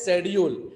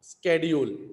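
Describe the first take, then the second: First: It begins with an sh sound. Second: It begins with an sk sound. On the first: "British speaker pronounce the word शेड्यूल" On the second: "American प्रोनाउन स्केड्यूल, क"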